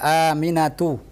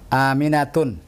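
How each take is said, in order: First: The name ends in a plain vowel without n. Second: The name ends with an added n sound. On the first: The speaker calls it right. "Tidak boleh" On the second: The speaker calls it wrong.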